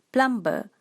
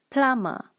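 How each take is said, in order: First: It is said with a Malaysian-style pronunciation. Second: It is said with a standard pronunciation. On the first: The speaker calls it wrong. "In Malaysia, we call this plumber" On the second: The speaker calls it right. "But the correct pronunciation is plumber"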